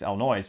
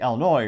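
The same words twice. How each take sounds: First: It is said the way outsiders say it. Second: It is said the usual local way.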